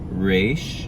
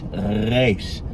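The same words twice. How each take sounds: First: The R is an English-style R. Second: The R is rasped at the back of the throat. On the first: The speaker calls it wrong. "Many Americans just pronounce this resh like our English R" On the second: The speaker calls it right. "we call it a uvular fricative, or a uvular trill"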